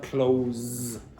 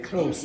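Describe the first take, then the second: First: The word ends with a buzzing z sound. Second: The word ends with a hissing s sound. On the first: The speaker calls it wrong. "not close" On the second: The speaker calls it right. "you say close ... change from z to s"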